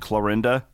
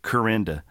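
First: The name is said with an L sound. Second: The name is said without an L sound.

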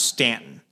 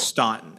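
First: The first vowel sounds like 'a' in 'can'. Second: The first vowel sounds like 'aw' in 'saw'. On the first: This is how the locals say it. The speaker calls it wrong. "Staunton is pronounced Stanton" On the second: This is how it is spelled. The speaker calls it right. "even though it's Staunton"

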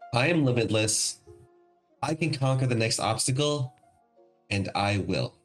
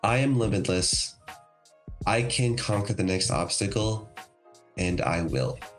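First: It is said with more force and energy. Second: It is said with ordinary, lower energy.

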